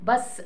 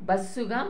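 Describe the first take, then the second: First: The word ends in a consonant sound. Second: The word ends in an added vowel sound. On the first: This is the English form. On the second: This is the Telugu adapted form.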